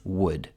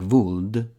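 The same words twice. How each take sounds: First: The word begins with a W sound. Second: The word begins with a V sound. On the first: The speaker calls it right. "It's would" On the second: The speaker calls it wrong. "W is not pronounced as a V like would. Some Italians say like would. Please don't do that"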